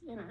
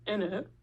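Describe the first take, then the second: First: It is said plainly, without a put-on accent. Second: It is said with an exaggerated put-on accent. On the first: The speaker calls it right. "just in it" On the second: The speaker calls it wrong. "not in it. That's what you're saying"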